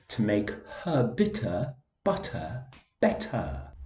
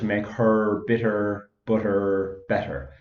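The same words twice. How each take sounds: First: It is spoken in an English accent. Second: It is spoken in an Irish accent.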